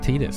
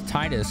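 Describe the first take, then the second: First: The first syllable does not sound like 'tide'. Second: The first syllable sounds like 'tide'. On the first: The speaker calls it right. "apparently it's Titus" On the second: The speaker calls it wrong. "I always thought it was Titus because, like, tides"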